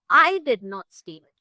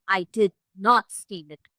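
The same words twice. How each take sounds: First: I punched, louder than the rest; accusing stress on I. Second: "did not" stressed, slow and firm; denying stress on did not. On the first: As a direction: hit the word "I" hard in "I did not steal it". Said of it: "if you intonate on I". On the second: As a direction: lean on "did not" in "I did not steal it". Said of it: "The emphasis on did not". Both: Shown as a demonstration.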